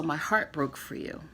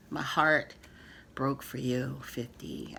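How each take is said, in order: First: Said in the usual way. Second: Softer, fading into a near-whisper on fifty; emotional. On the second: Real, not acted. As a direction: let it come from the heart, sinking down. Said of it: "I'm getting emotional".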